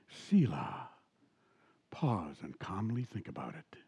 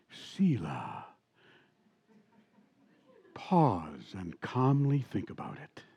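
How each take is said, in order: First: Low breathy whisper of the radio host; imitating the radio host in a whisper. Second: Low, slow, smooth late-night radio voice; imitating a mellow radio host signing off. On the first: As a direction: hush it right down, a whispered sign-off. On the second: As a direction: ease it out like a midnight DJ. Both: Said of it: "and he would talk like this".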